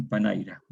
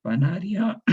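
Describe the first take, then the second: First: Panaira: i moved before r, pa-NAI-ra; metathesis panaira. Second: Said in the usual way. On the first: Shown as a demonstration. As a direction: say panaira with swapped sounds. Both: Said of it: "Ahí se produjo una metátesis".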